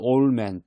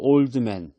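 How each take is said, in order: First: The d sound in old is dropped. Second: The d sound in old is pronounced.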